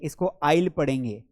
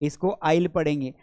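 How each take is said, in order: The two takes are said the same way.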